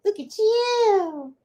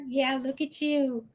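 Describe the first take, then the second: First: Very high, drawn-out pet talk; doting coo. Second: Said in the usual way. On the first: Real, not acted. Admiring the dog Mello, doting coo. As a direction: stretch YOU into a high coo. Second take, cooed to the dog.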